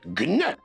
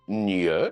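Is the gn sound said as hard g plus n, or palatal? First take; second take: hard g; palatal. First: A hard g is followed by n. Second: It is one soft palatal nasal sound. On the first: "avec un G dur" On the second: "avec un G dit mouillé"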